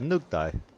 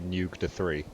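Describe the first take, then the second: First: The name ends with the sound 'dai'. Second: The name ends with the word 'three'. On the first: The name is said as its owner says it. "you said it's pronounced Nugdai" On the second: The name is read as it is written. "I'm just gonna say Nugda three"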